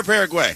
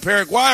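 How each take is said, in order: First: Second option, "Paraguay" ending like "way"; "Paraguay" rhyming with "say". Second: First option, "Paraguay" ending like "why"; "Paraguay" rhyming with "eye". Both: Shown as a demonstration. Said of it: "let's come to a consensus".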